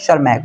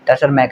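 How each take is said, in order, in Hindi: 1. इस नाम की शुरुआत सीधे sh की आवाज़ से होती है। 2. इस नाम की शुरुआत बोली गई T की आवाज़ से होती है। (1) "टी साइलेंट है तो बनेगा शर्मैक" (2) "नहीं टशरमैक नहीं होगा"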